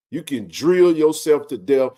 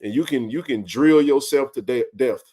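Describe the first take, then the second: First: "drill" and "death" spelled out slowly for emphasis; slow it down and lean on "drill"; slow emphatic repeat. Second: Said in the usual way. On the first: Real, not acted.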